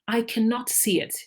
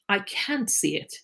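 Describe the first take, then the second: First: The word cannot is said in full. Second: The word cannot is shortened to can't. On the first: It is the formal, written form. "When we're writing formally" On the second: It is the everyday spoken form. "when we're speaking, we tend to say"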